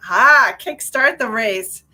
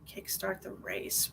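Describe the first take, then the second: First: Louder, slow, each word leaned on as it clicks; realizing emphasis. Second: Soft, slow, half-whispered phrase, as if hearing it from spirit; hushed repeat. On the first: Medium grasps the spirit's message, slow and loud. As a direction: land it as a sudden understanding. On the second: Medium quietly repeats the spirit's words, slow hush. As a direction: murmur the message slowly to yourself. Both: Shown as a demonstration.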